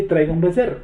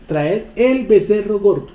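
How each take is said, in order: First: Said in the usual way. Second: Slowly, with the weight on "el" in "Traer el becerro gordo"; stress on el. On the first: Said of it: "No dice". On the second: Shown as a demonstration. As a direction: stress the definite "el", read slowly. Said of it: "lo determina".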